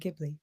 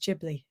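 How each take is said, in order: First: The name is pronounced the Italian way. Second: The name is pronounced the Japanese way. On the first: This is the name as the original source says it. The speaker calls it right. "it maybe should have been the Italian Ghibli" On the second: This is the name as it is used in Japan. The speaker calls it wrong. "the Japanese name is Ghibli"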